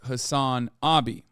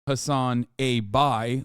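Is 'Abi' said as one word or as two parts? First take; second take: one word; two parts. First: Abi is said smoothly as one word. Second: Abi is split into 'a' plus 'bi'. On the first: It means older brother. The speaker calls it right. "It is Hassan Abi" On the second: It sounds like a label of sexuality. The speaker calls it wrong. "like Hassan a bisexual"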